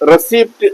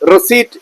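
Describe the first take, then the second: First: The p sound is pronounced in the middle. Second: The p sound is left out entirely. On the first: The speaker calls it wrong. "Common mistake ആണ് റെസിപ്റ്റ് എന്ന് പറയും. തെറ്റാണ്" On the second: The speaker calls it right. "പി silent ആണ്. റെസീറ്റ് എന്നാണ് പറയേണ്ടത്"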